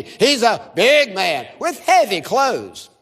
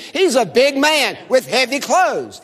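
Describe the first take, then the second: First: Slow, with "big" and "heavy" drawn out; stress on BIG, HEAVY. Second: Said in the usual way. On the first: Shown as a demonstration. Preacher leads congregation in unison, slow heavy stress on "big" and "heavy". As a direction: lean hard and long on "big" and "heavy". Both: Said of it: "Emphasize the word big and heavy".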